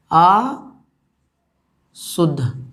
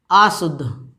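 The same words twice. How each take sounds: First: अशुद्ध drawn out very slowly, each syllable spaced. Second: Said in the usual way. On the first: Shown as a demonstration. Teacher counts the syllables for the class, very slow. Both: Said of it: "देखिए, शुद्ध में कितना अक्षर है".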